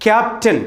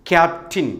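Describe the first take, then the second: First: ക്യാപ്റ്റൻ ending in "tun"; common mispronunciation. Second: ക്യാപ്റ്റിൻ ending in a short "tin"; correct pronunciation. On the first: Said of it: "തെറ്റ്". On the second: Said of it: "കൃത്യമായ ഉച്ചാരണം". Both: Shown as a demonstration.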